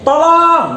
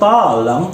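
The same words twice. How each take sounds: First: The word is said firmly and forcefully. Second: The word is said softly and gently. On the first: The speaker calls it right. "Jadi tolong" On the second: The speaker calls it wrong. "Masa minta tolong dengan lembut"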